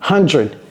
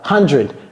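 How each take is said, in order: Both takes have the same delivery.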